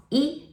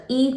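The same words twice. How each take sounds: First: 一 said rising as a second tone; 一 changed to a rising tone. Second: 一 said high and level as a first tone; 一 with its usual level tone. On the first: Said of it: "it will pronounce 一". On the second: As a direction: say 一 as yī, flat and high. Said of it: "no longer pronounce 一". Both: Shown as a demonstration.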